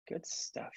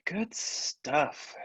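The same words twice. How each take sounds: First: Soft breathy whisper. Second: Said in the usual way. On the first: Shown as a demonstration. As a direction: whisper it to yourself. Repeats phrase, then whispers it.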